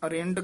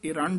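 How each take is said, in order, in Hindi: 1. शब्द 'a' ध्वनि से शुरू होता है। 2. शब्द 'i' ध्वनि से शुरू होता है। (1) "ਇਸ ਨੂੰ ਇਰ- ਅਰਿੰਡ ਕਹਿ ਜਾਂਦੇ ਹਨ" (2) "ਇਰੰਡ ਉਚਾਰਨ ਕਰਨਾ ਹੈ"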